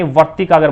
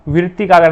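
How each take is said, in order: First: The word begins with the sound 'var'. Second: The word begins with the sound 'vri'. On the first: The speaker calls it right. "वर्तिकागर बोला जाता है" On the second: The speaker calls it wrong. "वृत्तिकागर नहीं"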